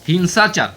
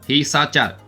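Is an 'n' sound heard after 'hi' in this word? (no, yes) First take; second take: yes; no. First: The word has an 'n' sound after 'hi'. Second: The word has no 'n' sound after 'hi'. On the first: The speaker calls it right. "याचा न न हा उच्चार होतो, म्हणून" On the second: The speaker calls it wrong. "वरती जो टिंब दिला आहे तो जर आपण वाचला नाही तर हा असा शब्द होईल"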